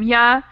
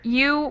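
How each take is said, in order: First: The word ends in a weak uh vowel. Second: The word has a full oo vowel. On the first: "You would become ya" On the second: "You would become ya"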